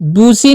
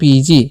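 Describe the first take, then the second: First: The first vowel is a long 'oo' sound. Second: The first vowel is an 'ee' sound. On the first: The speaker calls it wrong. "बूसी नहीं पढ़ना है" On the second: The speaker calls it right. "इसे पढ़ना है आपको बीजी"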